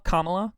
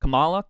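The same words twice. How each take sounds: First: "Kamala" said KAH-muh-luh; first-syllable stress. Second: "Kamala" said kuh-MAH-luh; second-syllable stress. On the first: Trying out how to pronounce the name, "Kamala" as KAH-muh-luh. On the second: Trying out how to pronounce the name, "Kamala" as kuh-MAH-luh. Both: Shown as a demonstration. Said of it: "How do you pronounce Kamala?".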